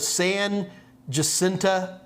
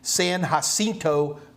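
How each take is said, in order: First: The name is pronounced with English sounds. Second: The name is pronounced with Spanish sounds. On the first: This is how locals usually say it. "we have a monument called the San Jacinta" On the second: This is the original pronunciation of the name. "the proper Spanish pronunciation would be"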